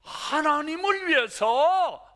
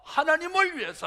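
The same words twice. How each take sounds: First: 위해서 stretched slow, higher and louder; stressing 하나님을 위해서, drawn out; emphatic. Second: Said in the usual way. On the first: Shown as a demonstration. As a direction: lean hard on 하나님을 위해서. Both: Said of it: "이제는 뭐예요?".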